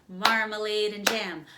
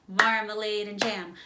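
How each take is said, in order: The two takes are said the same way.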